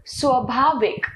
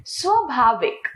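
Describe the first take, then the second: First: Short first vowel in स्वाभाविक; mispronounced स्वाभाविक. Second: Long first आ in स्वाभाविक; correct स्वाभाविक. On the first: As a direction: say स्वाभाविक as "swa-bhaavik". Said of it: "अशुद्ध". (स्वाभाविक का अशुद्ध उच्चारण, छोटे अ से) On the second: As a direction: say स्वाभाविक as "swaa-bhaavik". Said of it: "इसका शुद्ध है". (स्वाभाविक का शुद्ध उच्चारण, लंबे आ से) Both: Shown as a demonstration.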